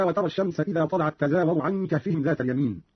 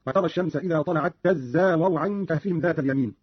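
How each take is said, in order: First: Said in the usual way. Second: تزاور as "tazzawaru", zay held double; Qalun's doubled zay. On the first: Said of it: "قرأ قالون بتشديد الزاي". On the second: Shown as a demonstration. Teacher demonstrating Qalun's reading, تزاور with doubled zay. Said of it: "قرأ قالون بتشديد الزاي هكذا".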